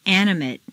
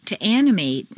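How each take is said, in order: First: "Animate" ending in weak "-mut"; reduced ending. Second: "animate" ending in long "-MATE"; full A ending. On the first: Teacher models adjective "Animate" with reduced final vowel. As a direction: shrink the last vowel of "Animate". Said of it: "in an adjective is completely reduced". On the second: Teacher models verb "animate" with full final A. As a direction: open out the last A of "animate". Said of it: "it's a full A sound". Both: Shown as a demonstration.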